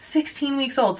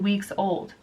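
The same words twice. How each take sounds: First: Put-on "Sixteen weeks old" repeated higher, each word weighed; stressed repeat. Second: Said in the usual way. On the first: Shown as a demonstration. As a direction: hit "Sixteen" to drive it home.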